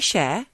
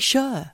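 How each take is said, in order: First: The name sounds like the word 'share'. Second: The name sounds like the word 'sure'. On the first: "I say Cher" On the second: "You say sure"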